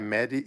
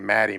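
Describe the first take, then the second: First: The first vowel sounds like the vowel in 'bed'. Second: The first vowel sounds like the vowel in 'mad'. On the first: This is the name's real pronunciation. "like M E D H I Medi" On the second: This is an Americanized pronunciation. "to an American you'd say Maddie"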